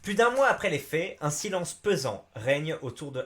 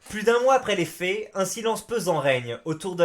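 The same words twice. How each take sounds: First: It is read in a plain, ordinary voice. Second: It is read with a dramatic news-reporter intonation.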